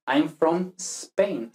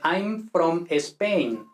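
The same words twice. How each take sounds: First: Spain opening on a long hissed s, no E; no initial E. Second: Slow Spanish accent, Spain as "Espain"; Spanish-accented English. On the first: Teacher models correct English, Spain with pure s. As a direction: slowly start Spain straight on "sss-pain". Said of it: "no tenemos que poner una E". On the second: Teacher mimics Spaniards speaking English, Spanish accent. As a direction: add an E before Spain, thick Spanish accent. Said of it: "en inglés no hay una E". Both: Shown as a demonstration.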